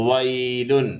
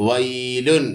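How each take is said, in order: Both takes have the same delivery.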